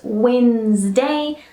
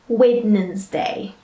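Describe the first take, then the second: First: The word is said with two syllables. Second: The word is said with three syllables. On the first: The speaker calls it right. "only two sounds, all right, instead of three" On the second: The speaker calls it wrong. "try not to add an extra sound to it"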